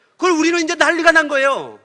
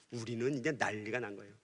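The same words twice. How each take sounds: First: Loud, higher, worked-up retelling of the family uproar; excited telling. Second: Much softer and lower, held-breath telling; hushed dread. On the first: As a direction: tell it like the whole house is in chaos. Family panics after brother leaves. (높고 크게 흥분한 목소리로) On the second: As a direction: drop to a near murmur as the kids freeze. Kids tremble as brother returns. (숨죽인 듯 아주 낮고 조용하게) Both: Retold or imitated.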